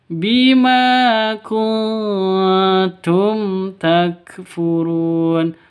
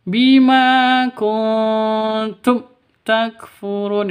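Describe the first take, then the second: First: The 'm' of kuntum is clear and plain. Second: The 'm' of kuntum is cut off abruptly. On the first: The speaker calls it right. "Yang betul" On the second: The speaker calls it wrong. "itu salah"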